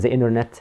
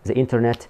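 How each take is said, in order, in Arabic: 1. يُنطق بلهجة أمريكية. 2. يُنطق بلهجة عادية وغير مميزة.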